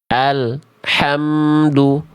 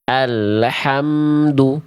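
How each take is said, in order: First: The L sound is abruptly cut off. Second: The L bounces with an added vowel after it. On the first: "tidak mengalir suaranya. Dia betul-betul terputus" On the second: "Karena memantul lam sukunnya"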